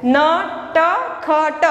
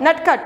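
First: "नटखट" very slowly, four separate letter sounds; slow reading. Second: "नटखट" short, joined as one word; all together. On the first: Teacher introduces the next word, "नटखट" slowly sounded out. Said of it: "आप slowly पढ़ सकते हो". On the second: Teacher models reading for pupils, "नटखट" all together. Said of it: "पूरा एक साथ में पढ़ना है". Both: Shown as a demonstration.

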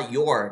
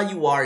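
First: "your" as one low syllable; fuse "you are" into "your"; joined word. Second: "you are" as two distinct words; separate words. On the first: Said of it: "ele juntou a palavra". ("your" numa sílaba só, mais grave) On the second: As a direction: keep "you" and "are" apart. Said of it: "Ele não fala". ("you are" em duas palavras separadas) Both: Shown as a demonstration.

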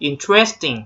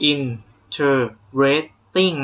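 First: Interesting run together as in-tres-ting; merged pronunciation. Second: Interesting split slowly into in-ter-res-ting; wrong four-syllable pronunciation. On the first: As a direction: squeeze interesting into three syllables, in-TRES-ting. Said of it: "เขารวบเสียงเลยนักเรียน". (interesting รวบเสียงเป็น อิน-เทรส-ติ้ง) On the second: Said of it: "ไม่ได้ออกเสียงว่า". (interesting แยกช้า ๆ เป็น อิน-เทอ-เรส-ติ้ง) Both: Shown as a demonstration.

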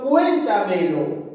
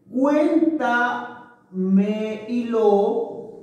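First: Said in the usual way. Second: "Cuéntamelo" stretched very slowly, "Cuén" punched; slow stressed demo. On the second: Shown as a demonstration. Teacher showing students the sobresdrújula stress of "Cuéntamelo", very slow. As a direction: draw out "Cuéntamelo" syllable by syllable, hitting "Cuén". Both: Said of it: "sobre esdrújula".

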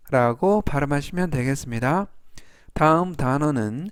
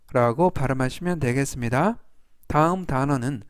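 Both takes have the same delivery.

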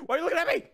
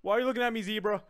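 First: Higher-pitched, rattled question; high, urgent protest; alarmed repeat. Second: Said in the usual way. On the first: Real, not acted. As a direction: ask it in rising alarm.

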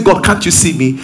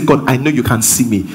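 First: Mildly pleading, questioning prayer; doubting question to God. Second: Lower, settled statement of trust; assured. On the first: Preacher demonstrates the wrong question to God, mildly doubting. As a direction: put a touch of doubt into the question. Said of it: "One is going to bring you fear". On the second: Preacher demonstrates the right words to God, assured. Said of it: "one will bring you assurance". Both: Shown as a demonstration.

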